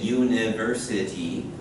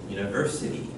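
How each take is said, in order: First: The syllables are even, all given equal weight. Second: The syllables are uneven, with one stressed. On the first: The speaker calls it wrong. "it sounds weird" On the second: The speaker calls it right. "They're not equal"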